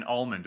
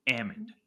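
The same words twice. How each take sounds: First: "almond" as "AHL-mund"; L pronounced. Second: "almond" as "AM-und"; L dropped. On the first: Host trying out the term, "almond" with the L sounded. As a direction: say "almond" with an open AH and a clear L. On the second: Host adopting the Valley term, "almond" without its L. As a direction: say "almond" with a short A as in "am", no L. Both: Shown as a demonstration. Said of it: "like, the real term".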